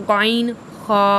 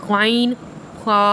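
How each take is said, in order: The two takes are said the same way.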